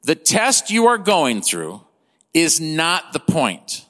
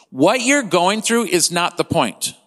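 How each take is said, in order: First: Slowed down, weighing each word of "is not the point"; slow emphasis. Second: Said in the usual way. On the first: Shown as a demonstration. Preacher repeating "is not the point" slowly so it sinks in. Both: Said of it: "I just wanna let that sink in".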